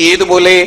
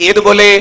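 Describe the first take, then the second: Both takes have the same delivery.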